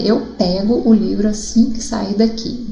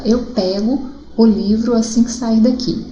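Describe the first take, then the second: First: Pego said as PÉ-go, open é; teacher demo, open vowel in pego. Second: Pego said PÉ-go with an open é. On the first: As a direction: read the sentence with an open é in pego. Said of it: "eu já falei, né?". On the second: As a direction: read the sentence aloud, open vowel in pego. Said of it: "Qual a diferença entre a pronúncia de pego". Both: Shown as a demonstration.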